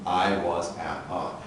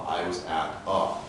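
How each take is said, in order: Both takes have the same delivery.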